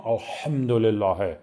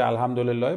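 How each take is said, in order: First: الحمدلله with the ح deep in the throat; guttural pronunciation. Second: Said in the usual way. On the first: Shown as a demonstration. Trainer mimics someone fussing over prayer letters, guttural الحمدلله. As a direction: say الحمدلله with exaggerated throaty consonants. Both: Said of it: "حروف رو حلقی تلفظ کنم".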